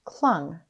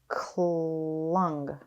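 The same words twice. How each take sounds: First: The word is said quickly as one unit. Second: The word is drawn out slowly, sound by sound. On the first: "Say it fast" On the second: "Tap and stretch"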